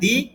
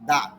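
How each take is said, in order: First: The vowel of 'the' is a long 'ee'. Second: The vowel of 'the' is a short 'uh'. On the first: The next word starts with a vowel sound. "এখানে দি" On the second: The next word starts with a consonant sound. "এই জন্য দা উচ্চারণ হবে"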